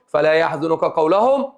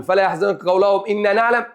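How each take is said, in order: First: Slow, then a clear pause after "قولهم"; full stop after the phrase. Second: "قولهم" run straight into "إنا نعلم" without stopping; no pause, wrong reading. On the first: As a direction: stop fully on "قولهم" and take a breath. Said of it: "ثم آخد نفسي الوقف". (وقف تام بعد "قولهم" ثم أخذ نفس) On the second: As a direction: recite "فلا يحزنك قولهم إنا نعلم" in one breath, with no pause after "قولهم". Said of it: "إذا لفسد المعنى". (وصل خاطئ بلا وقف بعد "قولهم") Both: Shown as a demonstration.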